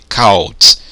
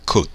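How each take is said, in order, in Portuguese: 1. A vogal soa como 'ow' em house. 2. A vogal soa como um 'oo' curto. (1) "se house ou u tem som de ao, então eu vou dizer o quê?" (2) "a pronúncia é could... esse ou agora tem som de que? U"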